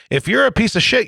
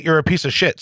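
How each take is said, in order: First: "piece of shit" pushed up high and hard; emphatic. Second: Said in the usual way. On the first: Real, not acted. Host angrily declaring his bottom line, emphatic and high. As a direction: hit "If you're a piece of shit" with force. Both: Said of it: "That's the bottom line".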